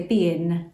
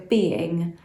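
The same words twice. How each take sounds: First: "being" said as "bein", ending in a plain n; West Country dropped G. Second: "being" with its final -ing fully sounded; careful "being", ending in ng rather than n. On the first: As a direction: drop the G at the end of "being". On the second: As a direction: say "being" with the G on the end. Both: Shown as a demonstration. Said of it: "You don't put your G's on the end".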